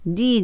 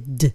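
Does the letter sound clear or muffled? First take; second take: clear; muffled. First: The letter sounds clear and unmuffled. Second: The letter sounds muffled and held back. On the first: The speaker calls it wrong. "D ではなくて" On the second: The speaker calls it right. "こうこもってる感じですね"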